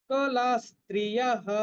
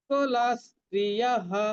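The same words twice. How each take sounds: No difference in how they are said.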